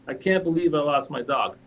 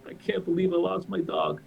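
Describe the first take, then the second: First: It is said in an angry, pissed-off tone. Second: It is said sadly, without anger.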